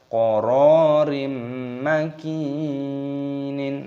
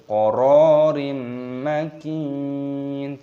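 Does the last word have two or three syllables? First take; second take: three; two. First: The last word ends with an extra syllable. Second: The last word ends on a stopped consonant. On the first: The speaker calls it wrong. "Jangan dibaca" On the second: The speaker calls it right.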